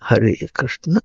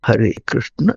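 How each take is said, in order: Both takes have the same delivery.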